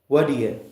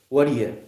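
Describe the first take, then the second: Both takes have the same delivery.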